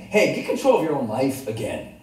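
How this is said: The tone is overly strong and scolding. The speaker is scolding the audience. The speaker calls it wrong. "But then there's overly strong and it's reprimanding"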